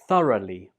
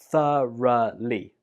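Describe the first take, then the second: First: The word is said at normal speed. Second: The word is said slowly.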